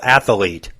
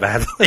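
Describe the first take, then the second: First: An extra vowel is added, giving three syllables. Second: No extra vowel is added, giving two syllables. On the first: The speaker calls it wrong. "They put an extra A in there" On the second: The speaker calls it right. "instead of"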